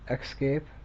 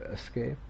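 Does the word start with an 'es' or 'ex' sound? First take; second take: ex; es. First: The word starts with an 'ex' sound. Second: The word starts with an 'es' sound. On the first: "replaced the S sound with an X sound" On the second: "instead of escape"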